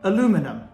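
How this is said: It is said the North American way, four syllables. The speaker calls it wrong. "in North America, you guys like to call it aluminum"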